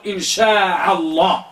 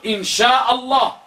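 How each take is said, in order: First: شاء said with an ain in place of the hamza, "shaʕa"; wrong ain. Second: شاء said with a clean hamza, no ain; teacher giving the right form إن شاء الله; correct hamza. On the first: Teacher showing students the common mistake, ain in شاء. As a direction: show the wrong form إن شاء الله with ʕ. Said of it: "لا تقل". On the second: Teacher correcting students, إن شاء الله with hamza. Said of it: "قل". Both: Shown as a demonstration.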